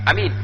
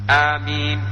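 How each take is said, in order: First: The first vowel is clipped with no lengthening. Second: The first vowel is briefly lengthened. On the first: The speaker calls it wrong. "bukan amin, bukan begitu maksud dalam ilmu tajwid" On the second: The speaker calls it right. "maksudnya mat panjang tapi tetap mat"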